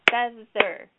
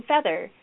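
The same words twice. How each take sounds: First: "Feather" broken into two beats, FEA - THER; syllable by syllable. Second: Said in the usual way. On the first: Shown as a demonstration. Teacher leads class clapping syllables, "Feather" in two distinct beats. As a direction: clap out each half of "Feather" separately. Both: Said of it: "let's clap the syllables in feather".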